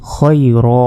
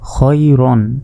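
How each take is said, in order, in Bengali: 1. শব্দটি লম্বা 'a' উচ্চারণে শেষ হয়। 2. শব্দটি 'an' উচ্চারণে শেষ হয়। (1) "এক জবরের উচ্চারণ এবং শেষে এক আলিফ অর্থাৎ এক সেকেন্ড টেনে পড়তে হবে" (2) "র দুই জবর রন"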